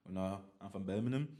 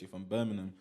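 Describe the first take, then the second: First: A light stab at a Brummie accent; Birmingham accent. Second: Said in the usual way. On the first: Shown as a demonstration. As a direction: try the only Birmingham accent you know. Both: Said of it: "That's my only accent I know how to do".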